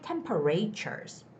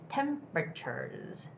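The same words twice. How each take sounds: First: The stress is not on the first syllable. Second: The stress is on the first syllable. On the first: The speaker calls it wrong. "don't say temperatures" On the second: The speaker calls it right. "this is the word with the first syllable stress"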